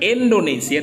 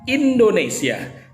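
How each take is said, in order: First: Some sounds in the word are slurred or dropped. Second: Every sound in the word is articulated clearly. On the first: The speaker calls it wrong. "Bukan Indonesia" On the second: The speaker calls it right. "tapi Indonesia"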